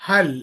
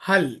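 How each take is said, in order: Both takes have the same delivery.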